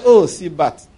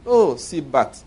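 First: Calmly. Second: Very calm. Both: Retold or imitated. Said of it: "Very calmly".

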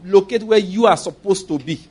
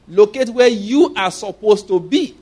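First: Said in the usual way. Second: Locate where you are supposed to be, slowed right down with weight on where; slow preacher's stress on where; slow emphatic repeat. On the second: Shown as a demonstration. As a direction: drive home where, each word spaced out. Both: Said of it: "All I'm gonna emphasize".

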